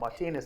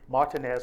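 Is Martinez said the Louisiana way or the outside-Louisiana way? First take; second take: outside-Louisiana; Louisiana. First: It is said the way people outside Louisiana say it. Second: It is said in the local Louisiana way.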